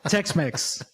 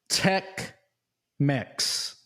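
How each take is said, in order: First: The name is said fast, sounding like Tex Mex. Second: The name is said at a normal, careful pace.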